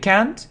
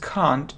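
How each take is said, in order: First: It is said in an American accent. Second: It is said in a British accent. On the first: "can't is American" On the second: "can't is British"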